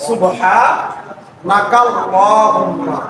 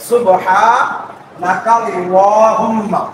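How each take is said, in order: Both takes have the same delivery.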